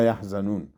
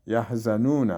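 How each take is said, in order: First: "یحزنون" read yahzanun, closed on n; yah-za-nun for "یحزنون" at verse end; stopping form. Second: "یحزنون" read yahzanuna, with a final short a; yah-za-nu-na for "یحزنون"; full-vowel ending. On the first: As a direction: stop on the n of "یحزنون", no final vowel. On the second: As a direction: sound the last "na" of "یحزنون". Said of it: "چون همون گردک که باشه". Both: Shown as a demonstration.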